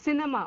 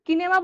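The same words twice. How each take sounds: First: সিনেমা with a soft s at the start. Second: কিনেমা with a hard k at the start; wrong hard C. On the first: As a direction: say সিনেমা, opening on an s sound. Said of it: "এখানে কি বলছি?". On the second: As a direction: say কিনেমা, opening on a k sound. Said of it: "এখানে কিনেমা বলছি না আমরা". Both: Shown as a demonstration.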